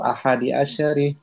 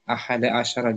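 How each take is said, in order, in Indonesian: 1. Kedua kata berakhiran vokal 'i'. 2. Kedua kata berakhiran vokal 'a'. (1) "Jangan ahadu asyaru atau ahadi asyari" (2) "Tapi ahada"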